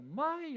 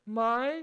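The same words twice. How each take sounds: First: It is said with the tone meaning 'no'. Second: It is said with the tone marking a question. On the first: It negates: no. "아니요 부정을 의미하고" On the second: It turns the sentence into a question. "입니까?"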